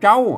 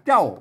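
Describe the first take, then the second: First: The syllable is said on a level mid tone. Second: The syllable is said on a low tone. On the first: "เสียงสมานนั่นก็เจ้า" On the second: "ใส่ไม่เอกเจ้า"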